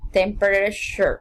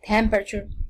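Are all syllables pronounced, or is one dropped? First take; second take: all pronounced; one dropped. First: Every syllable of the word is pronounced. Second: A middle syllable is dropped from the word. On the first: "Without elation" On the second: "Elation example"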